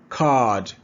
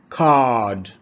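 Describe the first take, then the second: No difference in how they are said.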